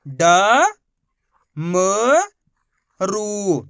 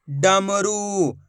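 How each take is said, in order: First: ड, म, रू as three long, separate syllables; letter by letter. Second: डमरू slowly drawn out as one word; letters blended. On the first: Teacher showing pupils how to read, letter by letter. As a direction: sound out ड... म... रू with long pauses. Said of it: "एक ही अक्षर का उच्चारण करके". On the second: Teacher putting the letters together, blended slowly. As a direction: join ड, म, रू without pauses, vowels stretched. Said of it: "तो मिलके बन जाएगा". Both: Shown as a demonstration.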